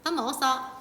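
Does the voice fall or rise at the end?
fall. The pitch falls at the end. It states that someone has eaten.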